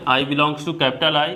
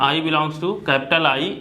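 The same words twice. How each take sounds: The two takes are said the same way.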